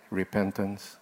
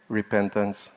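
First: Soft whispered repentance, lingering on "Repentance". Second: Said in the usual way. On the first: Shown as a demonstration. Preacher leading congregation to whisper the word, hushed. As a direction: breathe "Repentance" quietly with the congregation. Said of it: "whisper with me again?". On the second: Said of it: "Can you say".

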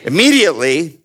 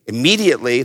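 First: Immediately lifted with a rising tune; immediately stretched and rising; rising emphasis. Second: Immediately dropped, calm and final; falling repeat. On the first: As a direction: hold up immediately like a question to the room. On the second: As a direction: settle immediately down as the answer. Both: Shown as a demonstration. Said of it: "next word".

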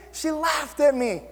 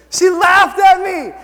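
First: Slow, higher, held-back disbelief; drawn-out, higher-pitched grievance; incredulous complaint. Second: High, loud, slow repeat; loud, drawn-out storyteller's indignation; indignant outburst. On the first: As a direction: let the disbelief out slowly, without raising the volume. First take, before indignant repeat. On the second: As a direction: belt it out in outraged disbelief. Indignant repeat, much louder. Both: Retold or imitated.

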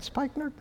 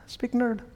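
First: "Spikenard" with first vowel as in "spike", asked softly; "Spikenard" with a long i, unsure; trying a pronunciation. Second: "Spikenard" with a short i, as SPICK-nerd; soft, high query, "Spikenard" said SPICK-nerd; alternative pronunciation. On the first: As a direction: tentatively say "Spikenard" as SPIKE-nerd, high and questioning. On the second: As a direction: tentatively say "Spikenard" with first vowel as in "pick". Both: Real, not acted. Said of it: "How do you say that?".

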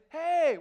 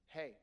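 First: Loud, high, exuberant hey; lunch-break greeting. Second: Short, subdued work-phone greeting; serious mode. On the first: Wife on lunch break greeting husband, exuberant. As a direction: burst out delighted to chat. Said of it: "she happens to be on a lunch break". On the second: Wife answering husband's call at work, serious. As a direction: give one reserved word and stop. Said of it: "she's in a serious mode". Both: Retold or imitated.

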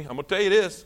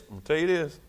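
First: Said in the usual way. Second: Hushed aside. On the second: Shown as a demonstration. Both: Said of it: "Everybody look at me".

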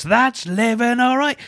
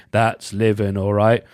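First: High, drawn-out singing of the hook; sung, belt the theme tune's hook up high; sung lead line. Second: Band chip-in response. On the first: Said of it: "who chip in when he goes". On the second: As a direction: answer the hook like lads chipping in. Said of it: "Then you hear". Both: Retold or imitated.

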